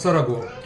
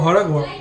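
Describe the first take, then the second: First: The word begins with an s sound. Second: The word begins with an h sound. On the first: "આપણી ગુજરાતી ભાષામાં" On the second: "અમારી મેહોણાની ભાષામાં"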